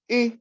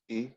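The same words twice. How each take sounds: First: The syllable is said on a high tone. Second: The syllable is said on a low tone. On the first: "this one's high tone" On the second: "this one's low tone"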